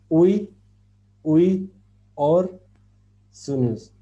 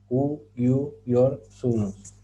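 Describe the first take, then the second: First: The syllables are split as uy-uy-or-sunus. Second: The syllables are split as u-yu-yor-su-nus. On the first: The speaker calls it wrong. "No se lee" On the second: The speaker calls it right. "Se lee de esa manera"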